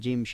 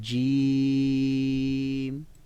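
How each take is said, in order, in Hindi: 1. हर्फ़ का नाम जल्दी से, छोटे स्वर के साथ बोला जाता है। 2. हर्फ़ का नाम खींचे हुए स्वर के साथ बोला जाता है। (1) "तेज़ी के साथ नहीं, जिम शीन ऐसे नहीं" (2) "पूरी अदायगी के साथ उसमें जो आवाज़ है, मद है"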